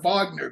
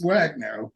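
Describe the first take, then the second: First: The word begins with a V sound. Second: The word begins with a W sound. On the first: This is how it would be said in Germany. "W's are pronounced V's over here" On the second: The group is not German, so the German reading does not apply. "since it's not Germany, it's Wagner"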